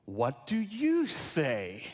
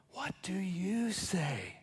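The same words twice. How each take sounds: First: "What do you say" drawn out slowly, voiced; slow, pointed question. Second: Slow whispered question to the listeners. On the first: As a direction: put the question slowly and deliberately to the listeners. Book's question repeated as Jesus's question. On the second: Acted. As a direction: whisper it softly, drawing out each word. Whispered question closing children's book.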